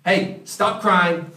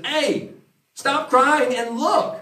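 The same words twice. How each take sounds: First: A gentle, lightly voiced call to stop weeping; mild elder's urging. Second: Higher and slow, drawn-out coaxing call; elder urging John. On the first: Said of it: "In other words". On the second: Retold or imitated. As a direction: snap a weeping friend out of it gently. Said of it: "He says".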